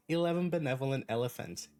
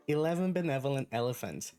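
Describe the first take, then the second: No difference in how they are said.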